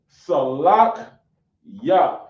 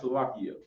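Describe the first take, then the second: First: It is said slowly with no extra vowel. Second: It is said fast with an extra vowel. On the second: "when you say it fast, it sounds like you add an E"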